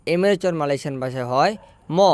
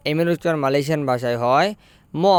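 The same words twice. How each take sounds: The two takes are said the same way.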